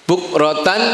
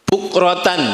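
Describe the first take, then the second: The two takes are said the same way.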